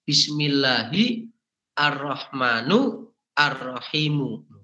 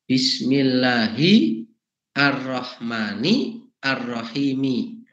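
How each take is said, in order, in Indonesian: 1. Dua kata terakhir berakhir dengan vokal u. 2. Dua kata terakhir berakhir dengan vokal i. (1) "ahli-ahli bahasa sering mengotak-atik" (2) "Cara bacanya begitu"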